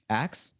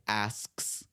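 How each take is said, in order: First: The word is said quickly, ending in 'ks'. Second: The word is said effortfully, ending in 'sk'. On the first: The speaker calls it right. "It's it comes off quicker" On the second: The speaker calls it wrong. "really giving the effort of like asks"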